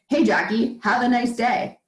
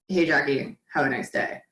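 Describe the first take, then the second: First: The tone is warm, positive and sincere. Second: The tone is insincere and sarcastic. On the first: The speaker truly wishes the person well. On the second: The speaker does not truly wish the person well.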